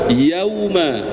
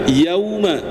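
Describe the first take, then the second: No difference in how they are said.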